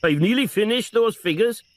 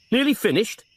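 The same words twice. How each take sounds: First: Put-on high lilting Welsh accent, rising on nearly; sincere sing-song Welsh voice. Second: Disbelieving echo, falling on Nearly; scornful repeat of Nearly finished; incredulous echo. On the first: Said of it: "sing-song Welsh voice". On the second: Acted. Frost echoes Morgan in disbelief.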